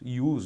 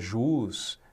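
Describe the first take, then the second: First: The word begins with a Y sound. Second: The word begins with a J sound. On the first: The speaker calls it right. "ius mesmo. J tem som de I" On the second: The speaker calls it wrong. "muita gente fala, né, jus"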